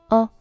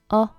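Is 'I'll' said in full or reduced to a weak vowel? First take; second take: reduced; reduced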